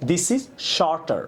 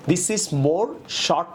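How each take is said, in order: First: Slow demo of right sentence. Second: Slow demo of wrong sentence. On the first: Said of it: "হবে". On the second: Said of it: "না হয়ে হবে". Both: Shown as a demonstration.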